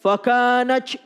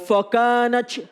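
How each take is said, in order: The two takes are said the same way.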